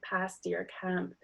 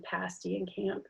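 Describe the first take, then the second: First: "pasty or camp" with a back "ah" vowel; tongue back and low on "pasty" and "camp"; "pasty", "camp" leaning toward "pahsty", "cahmp". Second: Said in the usual way. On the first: Shown as a demonstration. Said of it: "tongue goes back and low". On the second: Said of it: "versus what I say".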